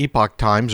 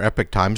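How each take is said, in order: First: The second syllable sounds like 'pock'. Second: The second syllable sounds like 'pick'. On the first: "depending on how you want to pronounce it" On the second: "a lot of people call it Epic"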